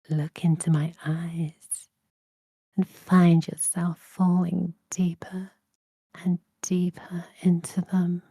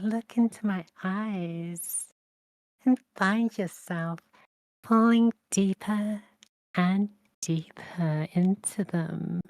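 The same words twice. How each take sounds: First: The voice sounds seductive and alluring. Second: The voice sounds light and playful. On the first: "I can do this seductively" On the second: "I could do it playfully"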